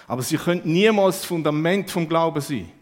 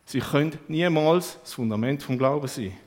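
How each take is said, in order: First: Niemals pushed hard and loud; stress on niemals. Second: Said in the usual way. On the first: Shown as a demonstration. Preacher hammering home to the congregation, stress on niemals.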